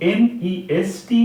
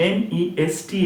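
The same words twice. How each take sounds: The two takes are said the same way.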